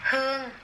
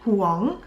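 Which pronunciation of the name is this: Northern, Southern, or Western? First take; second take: Southern; Western. First: The name is said with a Southern Vietnamese accent. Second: The name is said with a Western English accent. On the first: "South Vietnamese pronunciation" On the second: "Western pronunciation"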